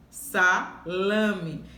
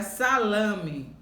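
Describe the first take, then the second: First: "Salame" broken as sa... LA-me; syllable stress. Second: Said in the usual way. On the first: Shown as a demonstration. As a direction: pause after "Sa", then stress "la" in "Salame". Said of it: "a sílaba mais forte é última".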